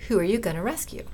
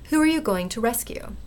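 First: The words 'going to' are contracted together. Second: The words 'going to' are said in full. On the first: "gonna ... That's fine" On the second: "going to"

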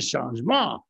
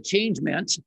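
First: The word is pronounced in a French way. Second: The word is pronounced in an English way. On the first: The speaker calls it right. "It makes me want to order like a croissant" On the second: The speaker calls it wrong. "it's not the changement"

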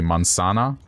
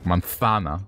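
First: The z is said with an s sound. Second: The z is said with a th sound. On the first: "the way my parents would say it" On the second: "a T H sound"

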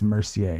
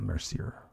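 First: The name is pronounced in a French way. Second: The name is pronounced in an English way. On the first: The speaker calls it right. "Given the Frenchness of Goalie, I'm assuming that it is" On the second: The speaker calls it wrong.

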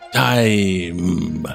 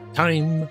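First: The word is stretched into two beats. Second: The word is said as a single beat. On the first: "you kind of make it a two-beat thing" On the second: "One beat"

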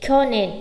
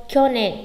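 Both takes have the same delivery.

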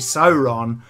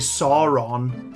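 First: The first vowel is a gliding diphthong. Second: The first vowel is a single blended vowel. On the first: The speaker calls it right. "it's A-U, you say Sauron" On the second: The speaker calls it wrong. "you don't say Sauron"

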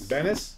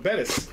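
First: The middle consonant is an N sound. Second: The middle consonant is a T sound. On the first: The speaker calls it wrong. "You say it with an N instead of a T" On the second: The speaker calls it right. "So Bettis"

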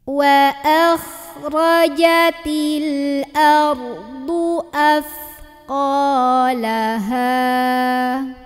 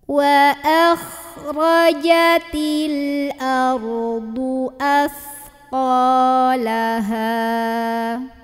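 Both takes have the same delivery.

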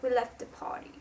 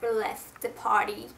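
First: It is said in a British accent. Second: It is said in an American accent. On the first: The speaker calls it right. "if you wanna do a British accent, be aware of the R and the A" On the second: The speaker calls it wrong. "It's absolutely American"

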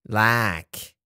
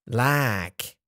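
No difference in how they are said.

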